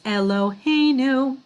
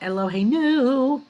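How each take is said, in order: First: The stress falls before the final syllable. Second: The stress falls on the final syllable. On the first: The speaker calls it right. "So this is Eloheinu" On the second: The speaker calls it wrong. "not Eloheinu. If it were, they would only put one"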